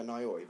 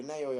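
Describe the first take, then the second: First: Nayoi said as NIGH-oy; "eye" pronunciation. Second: Nayoi said as NAY-oy; "ay" pronunciation. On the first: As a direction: say Nayoi with "nay" rhyming with eye. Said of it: "it's either Nayoi or Nayoi". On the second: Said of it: "not sure if I'm pronouncing that correctly". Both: Shown as a demonstration.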